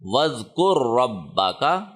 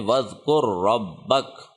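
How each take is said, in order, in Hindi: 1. वाक्यांश एक अंतिम स्वर ध्वनि पर समाप्त होता है। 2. वाक्यांश एक सादे व्यंजन पर समाप्त होता है।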